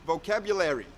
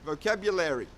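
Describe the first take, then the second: No difference in how they are said.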